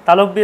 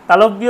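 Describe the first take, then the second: No difference in how they are said.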